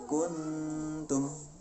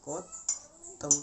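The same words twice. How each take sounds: First: "Kuntum" higher, with the n ringing long through the nose; ikhfa with ghunnah. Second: "Kotum" with the nasal hum choked off, leaving a gap; blocked-nose ghunnah. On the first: Teacher gives example of nun meeting ta, "Kuntum" with nasal hum. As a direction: hum the n of "Kuntum" freely before tum. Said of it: "ini contoh non mati ketemu dengan". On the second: Teacher proves ghunnah needs the nose, "Kotum" stopped up. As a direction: try "Kotum" with the nose shut, no ringing n. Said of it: "Kalau rongga hidung itu tertutup". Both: Shown as a demonstration.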